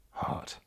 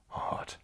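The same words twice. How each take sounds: First: Said in the usual way. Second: Whispered on request. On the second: Shown as a demonstration. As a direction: whisper "Heart" into the mic, no voice at all. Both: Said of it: "can you please say heart?".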